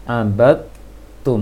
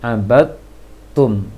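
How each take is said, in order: First: The d merges into a doubled t sound. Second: The same.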